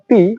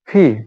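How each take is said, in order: First: The first sound is a plain p. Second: The first sound is a breathy ph. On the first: The speaker calls it wrong. "আগে আমরা এই পি এর উচ্চারণ করতাম পি" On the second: The speaker calls it right. "From today we will pronunciations it ফি"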